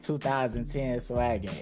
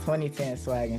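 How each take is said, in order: First: The number is read as two thousand ten. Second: The number is read as twenty ten. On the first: The speaker calls it wrong. "A lot of people say it like" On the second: The speaker calls it right. "It's pronounced"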